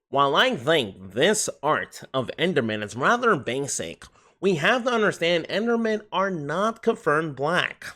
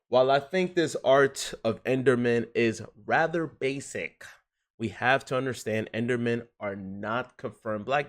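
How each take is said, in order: First: It is read in a put-on character voice. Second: It is read in the speaker's natural voice.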